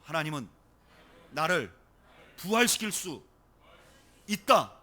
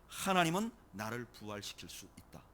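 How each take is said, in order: First: Loud, phrase by phrase with pauses after 하나님은, 나를, 부활시킬 수; lead for repetition. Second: Said in the usual way. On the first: Shown as a demonstration. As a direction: give it out firmly for others to repeat, building to a loud 있다. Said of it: "저를 따라하시죠".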